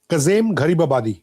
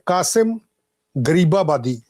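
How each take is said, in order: First: The name is said with a Persian z sound. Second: The name is said with a Punjabi s sound. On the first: "ਇਹ Iranian pronunciation ਦੇ ਵਿੱਚ ਹੈ" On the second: "ਥੋੜਾ ਜਿਹਾ ਪੰਜਾਬੀ ਪ੍ਰੋਨੰਸੀਏਸ਼ਨ ਚ"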